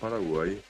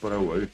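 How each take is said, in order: First: The final vowel is a plain Spanish i. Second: The final vowel is the Guaraní central vowel. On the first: This is the form adapted by Spanish speakers. The speaker calls it wrong. "quedó en Paraguay, como muchos otros nombres en guaraní terminados en I" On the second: This is the original Guaraní pronunciation. The speaker calls it right. "bien pronunciado es Paraguay"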